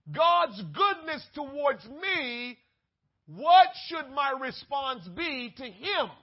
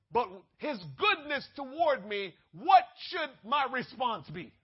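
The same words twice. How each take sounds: First: Slower, louder, leaning on "what"; weighty preacher's repeat; slow emphatic repeat. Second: Said in the usual way. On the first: Shown as a demonstration. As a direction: drag it out so "what should my response be" lands hard. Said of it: "first take". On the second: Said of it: "repeated slower".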